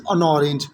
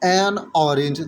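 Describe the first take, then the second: First: The word 'an' is reduced and joined on. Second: The word 'an' has a full, separate vowel. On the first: The speaker calls it right. "That is अन orange" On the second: The speaker calls it wrong. "That is not एन orange"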